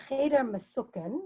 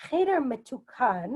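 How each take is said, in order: First: "Mesuken" with an S for the T and a final "-ken"; Yiddish pronunciation. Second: "Metukan" with a clear T and a final "-kan"; Hebrew pronunciation. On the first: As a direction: say "Cheder Mesuken" the Yiddish way, with an S sound in "Mesuken". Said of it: "in the Yiddish pronunciation". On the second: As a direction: say "Cheder Metukan" the Hebrew way, with a T sound in "Metukan". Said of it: "in Hebrew". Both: Shown as a demonstration.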